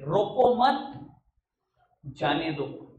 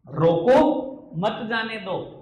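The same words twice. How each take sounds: First: There is a pause right after 'mat'. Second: There is a pause right after 'roko'.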